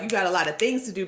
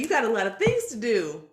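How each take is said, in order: First: It sounds weary and weighed down. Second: It sounds lively and excited. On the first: Having much to do is a burden. The speaker calls it wrong. "not in this sort of like" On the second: Having much to do is something to look forward to. The speaker calls it right. "And that's exciting"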